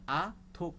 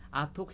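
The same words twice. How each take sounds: First: ATHUK broken into A, THUK; split into syllables. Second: Said in the usual way. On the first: Shown as a demonstration. Teacher showing learners the syllables, ATHUK split as A, THUK. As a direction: say ATHUK in two separate beats, A then THUK. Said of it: "e obo hai". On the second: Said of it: "norok athuk he da".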